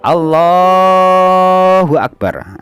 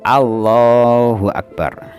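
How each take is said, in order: First: The 'la' syllable of Allah is drawn out. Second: The 'la' syllable of Allah is short. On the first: "kita boleh memanjangkan lafadz lamnya" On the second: "A harus pendek"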